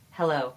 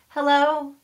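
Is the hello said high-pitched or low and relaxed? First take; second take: low and relaxed; high-pitched. First: It is said lower, relaxed, on the exhale. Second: It is said high-pitched, without breath behind it. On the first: The speaker calls it right. "but instead hello" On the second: The speaker calls it wrong. "not hello"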